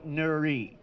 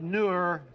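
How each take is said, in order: First: The name is said with a final vowel. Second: The name is said without a final vowel. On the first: This is the pronunciation others have always heard. "She said she had always heard Nuri" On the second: This is the speaker's own pronunciation, also given by an online search. "I said Nur Glass Company"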